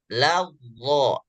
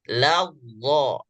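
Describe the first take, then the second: No difference in how they are said.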